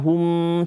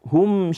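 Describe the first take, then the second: First: The nasal hum on the m is long. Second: The nasal hum on the m is short. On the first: The speaker calls it wrong. "Tidak dibaca hum, tidak" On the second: The speaker calls it right. "dengungnya itu tidak panjang. Cukup kita membaca hum syarrul bariyah"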